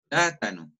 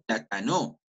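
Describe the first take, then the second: First: "plátano" with a held, strong PLÁ, falling away; correct first-syllable stress. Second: "plátano" said as pla-ta-NÓ, stress on the last syllable; misplaced stress at the end of "plátano"; wrong final stress. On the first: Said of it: "No digo plátano, no". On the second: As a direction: shove the accent of "plátano" onto NO. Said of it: "No digo plátano". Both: Shown as a demonstration.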